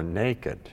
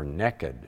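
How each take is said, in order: First: The word is said in a standard accent. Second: The word is said in a West Virginia accent.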